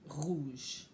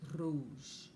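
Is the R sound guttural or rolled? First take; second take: guttural; rolled. First: The R is made in the throat. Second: The R is rolled on the tongue tip. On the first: This is how many regions of France say it. "like you're clearing your throat" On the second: This is how Quebec and southern France say it. "right on the end of your tongue"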